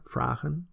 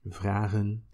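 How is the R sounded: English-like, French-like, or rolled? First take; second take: English-like; French-like. First: The R sounds soft and English-like. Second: The R is made in the throat, French-like. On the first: "the more or less English R" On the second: "it sounds kind of French-ish"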